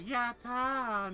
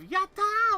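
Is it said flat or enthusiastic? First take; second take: flat; enthusiastic. First: It is said flatly, without enthusiasm. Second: It is said with lively enthusiasm.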